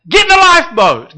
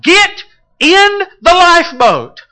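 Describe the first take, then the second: First: High, loud plea; urgent call. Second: High, loud urgent call. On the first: Acted. Preacher pleading with the congregation, a loud call. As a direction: cry it out to the whole room. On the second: Shown as a demonstration. Preacher calling the drowning into the lifeboat, loud and urgent. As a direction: shout it like a rescuer on deck. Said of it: "calling out and declaring".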